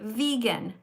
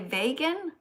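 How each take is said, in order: First: The first syllable rhymes with 'we'. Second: The first syllable rhymes with 'way'. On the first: This is how people say it now. The speaker calls it right. "but we actually say vegan now" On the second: This is the old-fashioned way to say it. The speaker calls it wrong. "In the olden days, they used to say vegan, but like like way"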